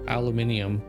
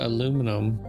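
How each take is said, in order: First: The word is said with five syllables. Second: The word is said with four syllables. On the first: The speaker calls it wrong. "every now and again I'll let it slip aluminium" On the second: The speaker calls it right. "I pronounce it aluminum"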